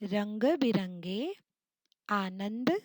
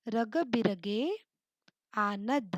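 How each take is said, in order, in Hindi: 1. स्वर नाक की ध्वनि के साथ बोले जाते हैं। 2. स्वर बिना किसी नाक की ध्वनि के बोले जाते हैं। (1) "अनुस्वार यानी बिंदु ... इसे सही कर लेते हैं" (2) "कितना गलत उच्चारण लगता है ना"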